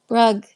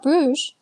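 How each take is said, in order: First: The name is pronounced in a non-French way. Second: The name is pronounced the French way. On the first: The speaker calls it right. "It's pronounced like like uh Brugge or something" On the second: The speaker calls it wrong. "It's not pronounced like French"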